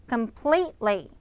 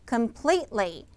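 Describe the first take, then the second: Both takes have the same delivery.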